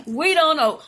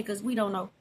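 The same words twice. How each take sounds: First: Louder, emphatic, stress on "we"; firm repeat. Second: Quiet, soft chuckling confession; laughing admission. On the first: Repeating the punchline to viewers, louder and emphatic. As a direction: hit "we" and land it firmly. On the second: Owning up to viewers about English homework, soft laugh. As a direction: laugh it out softly under the breath. Admits Americans can't help. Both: Real, not acted.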